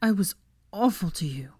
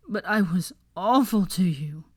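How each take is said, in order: First: Whispered, tearful whimper; crying into her shoulder, whispered whimper. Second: Slower, cracking voice; tearful confession, voice breaking. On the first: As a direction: confess it in a broken whisper. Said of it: "he whimpered, sniffling loudly". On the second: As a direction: let the voice crack on it. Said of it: "his voice breaking". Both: A narrator's reading.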